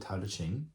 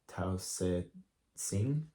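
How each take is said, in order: First: The title is said with English-style sounds. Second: The title is said with Chinese-style sounds.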